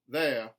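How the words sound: The R sound is dropped. "a general Southern dropped R"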